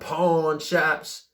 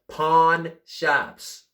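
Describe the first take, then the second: First: The words are said loosely, without clear enunciation. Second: The words are said crisply, with clear enunciation. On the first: The speaker calls it wrong. "I should have um, said that with enunciation" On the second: The speaker calls it right. "with enunciation"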